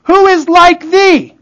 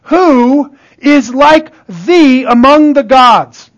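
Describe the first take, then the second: First: "Who is like thee?" pitched high and drawn out; repeated for emphasis. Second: Slow, drawn-out scripture quote; scripture recitation. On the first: Preacher repeating the verse, "Who is like thee?" high and emphatic. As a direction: lift all of "Who is like thee?" high and slow. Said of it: "the scripture repeats for emphasis". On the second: Preacher quoting Exodus to the congregation, slow recitation. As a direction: recite it slowly, stretching the words. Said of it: "the scripture says things like this about God". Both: Acted.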